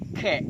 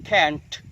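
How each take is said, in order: First: Can't cut off on an unreleased T; held final t. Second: Can't with a popped final T; released final t. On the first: Teacher recapping the other American version, T held in can't. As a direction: hold the T of can't back silently. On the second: Teacher recapping the American version, T released in can't. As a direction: burst the T at the end of can't. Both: Shown as a demonstration.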